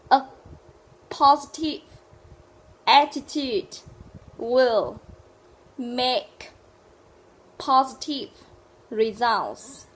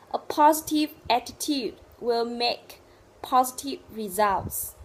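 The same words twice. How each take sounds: First: Loud, isolated words with a long pause after each. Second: Slow, loud model sentence in joined phrases; connected sentence. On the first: Teacher drilling a sentence for learners, word by word. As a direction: dictate it one word at a time, loudly. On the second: Teacher modelling the full sentence, connected and deliberate. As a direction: run the words together, still slow and clear. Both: Shown as a demonstration.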